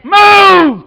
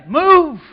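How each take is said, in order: First: Shouted command. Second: Said in the usual way. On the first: Shown as a demonstration. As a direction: Move shouted out loud, falling. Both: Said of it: "Quit sitting in one place".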